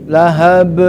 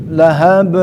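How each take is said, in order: The two takes are said the same way.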